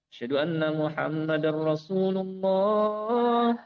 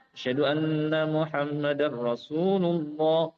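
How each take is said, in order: Both takes have the same delivery.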